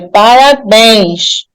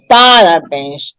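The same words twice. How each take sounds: First: The stress falls on the last syllable. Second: The stress falls before the last syllable. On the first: The speaker calls it right. "A última sílaba é acentuada" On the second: The speaker calls it wrong. "Não é parabéns"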